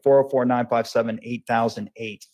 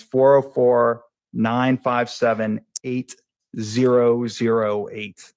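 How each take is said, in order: First: Said in the usual way. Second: Slow, separated digits with pauses. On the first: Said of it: "you are speaking a little too fast". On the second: Real, not acted. Witness giving a number for the court reporter, slowed down. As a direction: read the number out slowly, group by group. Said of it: "so try to slow down".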